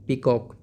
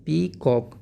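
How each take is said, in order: First: Said in the usual way. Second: peacock broken into two drawn-out beats, pee... cock; split into syllables. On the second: Shown as a demonstration. Teacher breaking the word for pupils, syllable by syllable. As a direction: say peacock slowly, a pause between pee and cock. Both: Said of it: "चीज़ों में तोड़कर हम easily".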